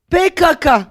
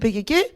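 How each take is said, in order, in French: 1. Les lettres sont épelées à la manière turque. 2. Les lettres sont épelées à la manière kurde. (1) "l'État turc disait K K, P K K" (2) "en kurde c'est P K K"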